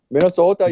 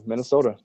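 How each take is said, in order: First: Put-on Minnesota, stretched, with the long round O of a Minnesota accent; hammed-up Minnesota accent, higher and louder; mock Minnesota accent. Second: Said in the usual way. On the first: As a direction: poke fun at the Minnesota accent with Minnesota. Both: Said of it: "people talk like that in that accent".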